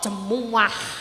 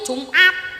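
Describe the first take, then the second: First: It is said in three syllables, ending in ah. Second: It is said in two syllables, ending in t. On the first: "Wong mbah-mbah iki lho nek muni Jumat iku jemuah" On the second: "wong Jawa biyen gak iso muni Jumat"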